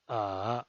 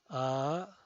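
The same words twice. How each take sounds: First: The pitch dips low, then rises. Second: The pitch rises from mid to high. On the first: "desciende primero ... para ascender luego" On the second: "El segundo tono es ascendiente"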